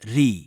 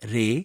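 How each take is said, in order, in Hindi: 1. यह अक्षर 'ee' स्वर पर खत्म होता है। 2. यह अक्षर 'ay' स्वर पर खत्म होता है। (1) "कर्नाटक संगीत में उच्चारण" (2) "हिंदुस्तानी संगीत में उच्चारण"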